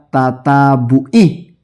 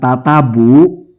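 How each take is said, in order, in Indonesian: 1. Kata ini berakhir dengan vokal akhir 'i'. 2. Kata ini berakhir tanpa vokal akhir 'i'. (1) "harusnya tatabu'i" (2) "ainnya salah"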